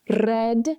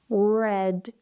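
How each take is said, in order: First: The R is trilled with the tongue tip. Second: The R is smooth with no tongue contact. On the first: The speaker calls it wrong. "you have the Italian R" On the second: The speaker calls it right. "and then the English R"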